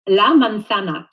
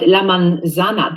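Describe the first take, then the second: First: The z is said like th, tongue between teeth. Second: The z is said like an English z. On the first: The speaker calls it right. "Stick your tongue out and say la manzana" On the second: The speaker calls it wrong. "I often hear people say um, Z"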